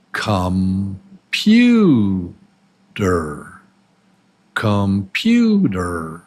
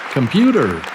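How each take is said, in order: First: Sound by sound. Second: Said in the usual way. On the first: Shown as a demonstration. Teacher has students guess the word, "Computer" sound by sound. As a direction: stretch and separate each syllable of "Computer". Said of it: "these are the sounds of the word". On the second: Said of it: "what is the real word?".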